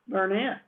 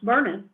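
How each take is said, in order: First: It is said the way outsiders say it. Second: It is said the way locals say it. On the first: This marks the speaker as not from the area. The speaker calls it wrong. "not Burnett" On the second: This is how people from the area say it. The speaker calls it right. "is supposed to be pronounced Burnett"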